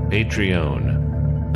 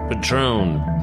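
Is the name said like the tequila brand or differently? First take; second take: differently; tequila brand. First: It is said unlike the tequila brand name. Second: It is said like the tequila brand name. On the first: The speaker calls it right. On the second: The speaker calls it wrong.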